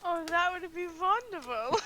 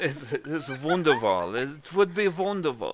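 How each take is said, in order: First: Higher, louder mock German gush; botched German accent sliding into vampire; failed German accent, vampire-like. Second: Hammy German accent, amused; demonstrated German accent. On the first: Player accepting a Derby invitation, botched German accent. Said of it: "Are you a vampire now?". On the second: Shown as a demonstration. Game master showing player the German wonderful, exaggerated accent. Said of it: "My, my German accent sucks too".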